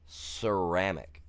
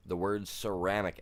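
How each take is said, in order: First: "Ceramic" spelt out slowly, each syllable deliberate; careful pronunciation. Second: Said in the usual way. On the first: Shown as a demonstration. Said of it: "God, this is so dumb".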